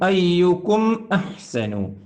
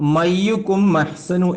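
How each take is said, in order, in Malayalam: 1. വ്യക്തമായ ഒരു ഗ്ലോട്ടൽ സ്റ്റോപ്പ് m നെയും ayyukum നെയും വേർതിരിക്കുന്നു. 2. m നേരെ ayyukum ലേക്ക് കയറുന്നു, ഗ്ലോട്ടൽ സ്റ്റോപ്പ് ഒഴിവാകുന്നു. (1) "ലിയബ്ലുവകും അയ്യുക്കും അഹ്സനു എന്ന് പറയണം" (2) "മയ്യുക്കും അഹ്സനു എന്നായി. ... അത് പാടില്ല"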